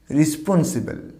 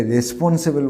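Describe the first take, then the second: First: রেসপন্সিবল as "ri-spon-si-bel"; corrected pronunciation. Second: রেসপন্সিবল with "re" and "se" vowels; common mispronunciation. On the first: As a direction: slowly say রেসপন্সিবল with "ri" and "si". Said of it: "উচ্চারণটা কী হবে?". (সঠিক রেসপন্সিবল, "রি" আর "সি" দিয়ে) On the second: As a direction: say রেসপন্সিবল as "res-pon-se-bel". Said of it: "না, রেসপন্সিবল না". (ভুল উচ্চারণে রেসপন্সিবল, "রে" আর "সে" দিয়ে) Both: Shown as a demonstration.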